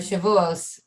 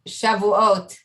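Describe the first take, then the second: First: It is said the common American way. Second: It is said the non-American way.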